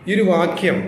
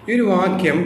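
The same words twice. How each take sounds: No difference in how they are said.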